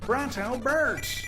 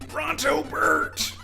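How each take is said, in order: First: It is said in a higher-pitched silly voice. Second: It is said in a lower-pitched silly voice. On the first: The speaker calls it right. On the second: The speaker calls it wrong.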